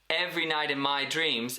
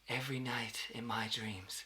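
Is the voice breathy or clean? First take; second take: clean; breathy. First: The voice is clear with no added breath. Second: The voice is airy with lots of breath. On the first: It carries little feeling. The speaker calls it wrong. "in a clean tone" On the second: It carries true emotion. The speaker calls it right. "then in that breathy tone"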